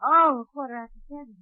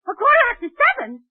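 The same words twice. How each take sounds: First: Said in the usual way. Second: Much higher, sudden realisation; the penny drops, she's late; alarmed double take. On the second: Acted.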